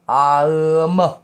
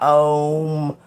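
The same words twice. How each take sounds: First: It is sounded as A-U-M. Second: It is sounded as O-M. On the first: It opens you up. The speaker calls it right. "Say it like that" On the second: It loops you back to where you started. The speaker calls it wrong. "Not Om"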